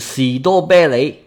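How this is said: It is pronounced the Cantonese way.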